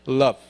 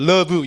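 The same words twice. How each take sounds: First: The word is said as a single syllable. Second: The word is said with two syllables. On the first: The speaker calls it right. "이름절이 이름절" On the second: The speaker calls it wrong. "우리는 love 이음절이잖아요"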